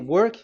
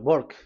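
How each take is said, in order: First: The word begins with a W sound. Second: The word begins with a B sound. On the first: "if you say work" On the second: "W is pronounced as B. ... they say"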